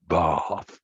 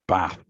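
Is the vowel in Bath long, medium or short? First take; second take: long; short. First: It has a long southern English vowel. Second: It has a short northern English vowel.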